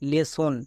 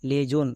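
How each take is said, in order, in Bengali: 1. মাঝের ব্যঞ্জনটি একটি s ধ্বনি। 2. মাঝের ব্যঞ্জনটি একটি z ধ্বনি। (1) "বর্গীয় জোটাকে দন্তস্ব করতে হবে" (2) "বর্গীয় জো"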